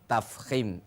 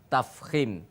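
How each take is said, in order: No difference in how they are said.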